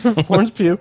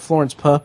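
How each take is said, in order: First: The surname ends in a long 'yoo' vowel. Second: The surname ends in a short 'uh' vowel. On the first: The speaker calls it right. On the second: The speaker calls it wrong.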